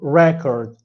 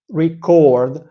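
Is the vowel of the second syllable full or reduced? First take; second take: reduced; full. First: The second syllable has a reduced schwa vowel. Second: The second syllable has a full 'or' vowel. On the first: "in chord, a chord, a schwa sound" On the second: "and ord, like door"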